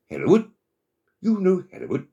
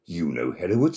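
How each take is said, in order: First: Very high, loud surprised question; storybook frog amazed, voice leaping up; astonished frog. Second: Said in the usual way. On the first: A narrator's reading. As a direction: exclaim in high-pitched disbelief.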